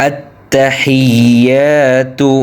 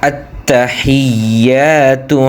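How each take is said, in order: Both takes have the same delivery.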